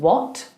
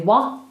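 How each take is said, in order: First: The word ends with a pronounced T. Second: The word ends without any T. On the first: "instead of saying" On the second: "they'll say wah"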